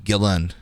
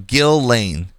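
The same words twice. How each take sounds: First: The name is said casually and loosely. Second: The name is said carefully and fully. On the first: "says it very casually, like" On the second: "uses what I think is the right pronunciation"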